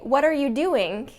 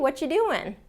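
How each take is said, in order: First: Every word is pronounced fully and distinctly. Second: The word 'are' is dropped in relaxed speech. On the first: The listener may be in trouble or disapproved of. The speaker calls it wrong. "Like that, it almost implies like you're in trouble" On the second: It is a friendly, casual greeting. The speaker calls it right. "hey, what you doing?"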